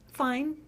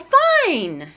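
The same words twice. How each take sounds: First: It is said quietly and in a held-back way. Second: It is said openly and in an exuberant way. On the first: "fine is quiet, it's held back" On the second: "the second one was much open and and exuberant"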